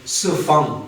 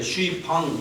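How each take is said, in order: First: It is said as two short syllables. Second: It is said as three syllables, shoo-ee-pang. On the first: This is how native speakers say it. The speaker calls it right. "중국말로는 스팡" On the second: Foreigners who cannot manage the sound say it this way. The speaker calls it wrong. "서양 사람들 그 발음이 안 되니까 슈이팡, 이렇게 발음하거든요"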